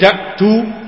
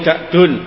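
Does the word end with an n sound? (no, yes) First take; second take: no; yes. First: The word ends on a vowel with no final n. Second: The word ends with a final n sound. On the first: The name is treated as non-declinable. The speaker calls it wrong. "boleh kita membacanya malayan sharif" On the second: The name is treated as fully declinable. The speaker calls it right. "yang lebih bagus dibaca munsharif"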